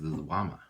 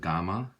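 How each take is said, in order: First: It starts with a soft breathy sound. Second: It starts with a hard G sound. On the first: This is how Greeks say it. "in Greek there is no God. They, they, they say this is wama" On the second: This is the English way of saying it. "this is gamma"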